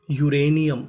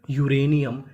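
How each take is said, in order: Both takes have the same delivery.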